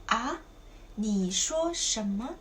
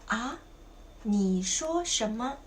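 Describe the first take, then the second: No difference in how they are said.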